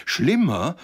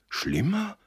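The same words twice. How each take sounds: First: Loud, high, aghast question; breathless echo. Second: Very high, startled question; alarmed cry. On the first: Listeners repeating Josef's question, breathlessly aghast. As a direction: echo it louder in shock. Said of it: "wiederholten die anderen atemlos". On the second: Josef hearing of worse news, alarmed. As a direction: let alarm push the voice right up. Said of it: "rief Josef erblassend". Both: A narrator's reading.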